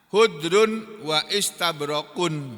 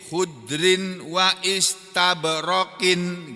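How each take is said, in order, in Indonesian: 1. Kata-kata itu berakhir dengan bunyi -un. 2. Kata-kata itu berakhir dengan bunyi -in. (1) "kalau dibaca khudrun wa istabrak ini berarti marfu" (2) "keduanya dibaca majrur"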